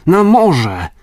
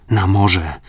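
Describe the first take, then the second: First: Much higher and louder urgent cry; shouted call. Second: Said in the usual way. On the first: Acted. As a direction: call the rowers out to sea. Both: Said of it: "zawołał".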